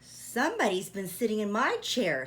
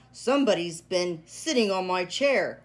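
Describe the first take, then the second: First: It is said in a middle-sized voice. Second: It is said in a great big voice.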